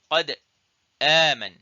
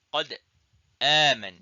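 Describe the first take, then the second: Both takes have the same delivery.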